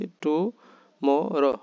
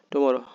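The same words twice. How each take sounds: First: Tomorrow very slowly, in three separate parts; syllable by syllable. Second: Said in the usual way. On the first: Shown as a demonstration. Teacher shows how many parts tomorrow has, slowly separated. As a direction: split tomorrow into to, mo, ro with gaps. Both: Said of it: "কয়বারে করছি".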